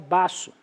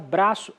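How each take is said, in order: First: The word begins with b alone, no r. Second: The word begins with a full br cluster. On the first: A child still acquiring the language says it this way. "ela vai falar baço" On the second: This is the standard form. "Em vez de falar braço"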